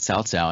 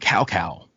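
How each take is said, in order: First: The syllables do not sound like 'cow'. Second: Each syllable sounds like the English word 'cow'. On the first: The speaker calls it right. "they finally got it right, and they, they started calling him Cao Cao" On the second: The speaker calls it wrong. "the old Dynasty Warrior games would would call him Cow Cow"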